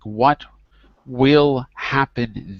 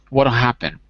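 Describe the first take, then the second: First: The words are said separately, without contraction. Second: The words are contracted with a D-like sound. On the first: "words connected, like what will happen then" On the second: "the T becomes a D ... joined together as if it's one word"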